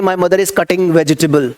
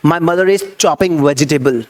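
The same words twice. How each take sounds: First: Slow, deliberate model sentence; careful classroom demo of the wrong wording; wrong version, slow. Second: Slow, deliberate model sentence; careful classroom demo of the right wording; correct version, slow. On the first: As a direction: spell out the wrong example slowly. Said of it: "नहीं भाई, नहीं बोलना". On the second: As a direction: say the right example slowly and clearly. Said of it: "आपको चॉप बोलना है". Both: Shown as a demonstration.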